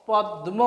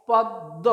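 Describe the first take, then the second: First: "পদ্ম" in two beats with an audible m; wrong sounded ম. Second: "পদ্ম" split on a held double d, no m; doubled দ in পদ্ম. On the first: Teacher showing what to avoid, পদ্ম with m pronounced. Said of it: "এরকম আমরা উচ্চারণ করব না". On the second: Teacher modelling the right form for learners, পদ্ম as "pod-do". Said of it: "দয়ের উচ্চারণটা দ্বিত্ব অর্থাৎ দুবার হবে". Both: Shown as a demonstration.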